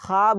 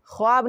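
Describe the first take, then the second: First: ख्वाब as khaab, no w; silent waw. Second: ख्वाब as khwaab, with a w; higher ख्वाब with the w sounded; waw wrongly sounded. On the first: Teacher showing learners the accepted form, waw silent. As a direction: drop the w in ख्वाब. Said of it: "बोलते हैं". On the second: Teacher showing learners what not to say, waw sounded. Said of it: "नहीं बोलते हैं". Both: Shown as a demonstration.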